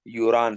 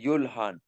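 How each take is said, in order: First: The parts are linked with an R sound. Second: The two parts are said separately with L. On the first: The speaker calls it right. "इसकी प्रोनाउंसिएशन हम किस से करेंगे, यूरान से करेंगे" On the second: The speaker calls it wrong. "अगर किसी ने मसलन रूल ना किया है तो वो क्या कहेगा"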